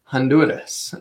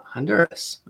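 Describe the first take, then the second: First: HONDURAS said the Spanish way, tapped R; Spanish pronunciation. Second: HONDURAS said the English way, softer; English pronunciation. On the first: Picky traveler showing local pronunciation, HONDURAS in Spanish. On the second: Giving listeners the name as said in English, HONDURAS anglicized. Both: Shown as a demonstration. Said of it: "as you would say in English".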